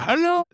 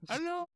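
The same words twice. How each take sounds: First: It is said as a full, plain greeting. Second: It is said faintly, like a fading echo. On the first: A greeting to the room. "I go" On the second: An imitation of the room's echo. "I make a little bit of the echo sound myself"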